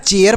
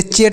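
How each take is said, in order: First: चेयर in two beats, che-ər; the right way to say चेयर, like the English chair; correct pronunciation. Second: चेयर clipped to one syllable, cher; the wrong way the pupil might say चेयर; wrong pronunciation. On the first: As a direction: open चेयर into che then ər. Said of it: "चेयर पढ़ते हैं". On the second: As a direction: rush चेयर as a single beat. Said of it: "चेयर तो नहीं पढ़ते हैं ना". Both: Shown as a demonstration.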